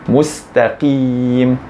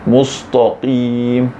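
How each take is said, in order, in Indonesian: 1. Hanya bunyi q yang berat. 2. Bunyi sebelum q juga berat. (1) "yang tebal sepatutnya qaf saja" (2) "bukan mustaqim"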